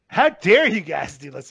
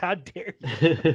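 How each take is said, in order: First: Slow, louder mock indignation; hammed-up scolding of the adults; mock outraged activist. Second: Very slow, drawn-out mock outrage; mock indignant glare. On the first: Young activist scolding world leaders, hammed-up slow outrage. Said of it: "And she's like". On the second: Activist staring down the president, slow mock outrage. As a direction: stretch it out like a scandalized scold. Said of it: "looks at Trump like".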